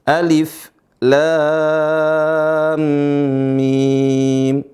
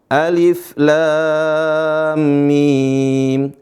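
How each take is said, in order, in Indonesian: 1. Tiap huruf dibaca dengan nama lengkapnya. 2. Tiap huruf dibaca dengan nama lengkapnya.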